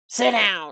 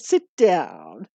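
First: The voice is curt and snotty. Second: The voice is warm and praising. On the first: The speaker is impatient with the dog. The speaker calls it wrong. "One is snotty" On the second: The dog is being encouraged kindly. The speaker calls it right. "the other is praising them. A nice kind of a tone to help them be good"

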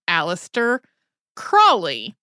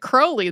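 First: The first syllable does not sound like 'crow'. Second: The first syllable sounds like 'crow'. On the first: This is the common American way of saying it. The speaker calls it wrong. "you have probably gotten really used to the pronunciation Aleister Crowley" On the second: This is how the man himself said it. The speaker calls it right. "He said it Crowley, though. The brewery that his family owned even had crows"

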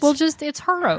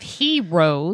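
First: The first syllable sounds like 'her'. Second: The first syllable sounds like 'hee'. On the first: A play on the word for women heroes. "it's Heroes" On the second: The usual word for brave people. "Instead of Heroes"

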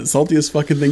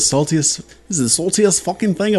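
First: It is said in the speaker's plain accent. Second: It is said in an imitated British accent. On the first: "I'm not even going to try that again" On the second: "with that British accent"

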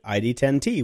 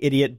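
First: It is spelled out as I, D, ten, T. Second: It is said as one word, idiot. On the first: This is how the owner says the name. The speaker calls it right. "but he pronounces it ID10T" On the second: This is how most people say the name. The speaker calls it wrong. "Everybody keeps saying idiot"

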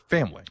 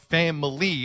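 First: The word is said with two syllables. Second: The word is said with three syllables. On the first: "family to me has become a two syllable word" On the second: "She hits the three syllables"

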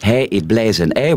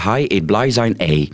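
First: Hij, blij and zijn have the standard 'ei' vowel. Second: Hij, blij and zijn have an 'ai' vowel. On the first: "de lange ei veranderen naar ai"

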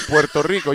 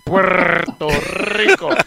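First: Only some of the R sounds are rolled. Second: Every R sound is strongly rolled. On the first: The speaker calls it right. "you say Puerto Rico" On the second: The speaker calls it wrong. "You don't say Puerto Rico"

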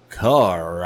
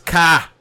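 First: The final r sound is pronounced. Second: The final r sound is dropped. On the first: This is how most English speakers say it. "Not in the rest of the English speaking world. It's car" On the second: This is how people in Boston say it. "And they'll it's ka"

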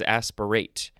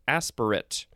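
First: The last syllable is full, like 'ate'. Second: The last syllable is reduced, like 'it'. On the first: It is the verb form. "and this one is aspirate" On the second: It is the noun form. "the first form is pronounced aspirate"

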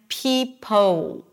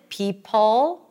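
First: The final L sounds like a rounded W. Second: The final L is dark, lips unrounded. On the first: The speaker calls it wrong. "OO, the lips round" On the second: The speaker calls it right. "see my lips are not really rounded"

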